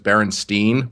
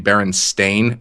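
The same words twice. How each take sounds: First: The last syllable sounds like 'stine'. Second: The last syllable sounds like 'stain'. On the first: This is the way most people remember the name. The speaker calls it wrong. "everyone who knows that book knows it as" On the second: This is the name's actual form. The speaker calls it right. "but it's actually Berenstain, S T A I N"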